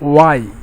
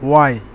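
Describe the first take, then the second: Both takes have the same delivery.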